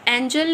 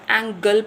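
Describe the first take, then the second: First: The middle consonant is a soft j sound. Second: The middle consonant is a hard g sound. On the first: The speaker calls it wrong. "एंजल नहीं पढ़ेंगे" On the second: The speaker calls it right. "एंगल पढ़ेंगे"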